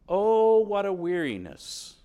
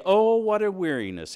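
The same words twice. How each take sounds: First: Loud, higher drawn-out groan of boredom; hammed-up exasperated complaint; weary sneer. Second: Louder, groaning complaint; exasperated loud groan of boredom; weary sneer. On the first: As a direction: moan it like a fed-up churchgoer. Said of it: "And you sneer at it". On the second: Retold or imitated. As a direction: sneer it like a worn-out worshipper. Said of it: "and you sneer at it".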